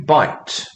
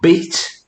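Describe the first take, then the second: First: The vowel sounds like eye in bite. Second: The vowel sounds like ee in beat. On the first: This is the modern pronunciation. "to bite" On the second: This is the older pronunciation. "This shifted from beat"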